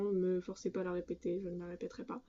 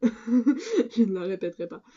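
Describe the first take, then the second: First: Much softer, under the breath; quiet refusal. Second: Louder, drawn-out and laughing; laughing refusal. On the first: Vlogger refuses viewers a repeat, very quietly. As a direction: drop right down for a small, quiet refusal. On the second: Vlogger jokingly refuses viewers again, laughing and emphatic. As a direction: repeat it slowly and loudly through a laugh. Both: Real, not acted.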